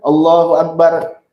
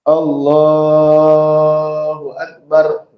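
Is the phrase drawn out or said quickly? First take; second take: quick; drawn out. First: The phrase is said quickly without lengthening. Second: The phrase is drawn out with long vowels. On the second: "Jangan cepat ya, dipanjangin"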